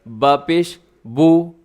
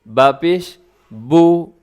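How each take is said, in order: The two takes are said the same way.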